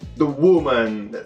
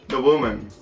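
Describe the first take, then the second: First: It is said in an impressed, dramatic way. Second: It is said in a flat, ordinary way. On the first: The title sounds exciting to a non-native listener. "Ah, that's cool, you know?" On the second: The title sounds plain to a native listener. "it's just like"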